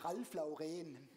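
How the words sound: The name is said with a German pronunciation. "Deutsche sagen"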